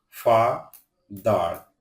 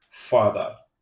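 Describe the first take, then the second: First: father broken in two, ফা then দার, with a pause; split into syllables. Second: Said in the usual way. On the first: Shown as a demonstration. Teacher showing learners what a syllable is, split into syllables. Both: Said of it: "যতটুকু অংশ একসাথে উচ্চারণ করা".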